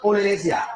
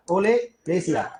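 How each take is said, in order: First: Said in the usual way. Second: oleracea stretched out syllable by syllable; teacher drawing out oleracea slowly; slow, spelled out. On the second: Shown as a demonstration. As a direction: say oleracea very slowly so the class can copy it.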